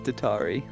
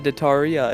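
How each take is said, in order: First: The name ends on an 'ee' sound. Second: The name ends with an extra 'ah' syllable. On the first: The speaker calls it right. "it's Datari" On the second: The speaker calls it wrong. "It's not Dataria"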